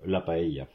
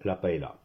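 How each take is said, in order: First: The word is pronounced the Spanish way. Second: The word is pronounced the French way. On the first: The speaker calls it right. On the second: The speaker calls it wrong.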